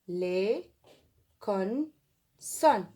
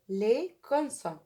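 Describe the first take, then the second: First: "les consonnes" broken into les, con, sonnes; syllable-by-syllable dictation. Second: Said in the usual way. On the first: Shown as a demonstration. Teacher writing along with pupils, spaced-out dictation. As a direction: say "les consonnes" with long pauses between syllables.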